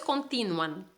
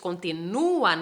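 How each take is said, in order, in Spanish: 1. La u es débil y se mezcla con la a. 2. La u es tónica y se pronuncia por separado. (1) "no es continúan" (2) "hay que acentuar la U para que podamos hablarla de manera fuerte"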